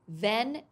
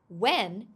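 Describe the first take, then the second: First: The word begins with a V sound. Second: The word begins with a W sound. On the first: The speaker calls it wrong. "is wrong" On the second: The speaker calls it right. "is correct"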